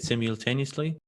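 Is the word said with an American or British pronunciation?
British. The word is said with a British pronunciation. "English people say it simultaneously"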